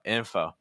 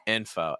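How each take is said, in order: Both takes have the same delivery.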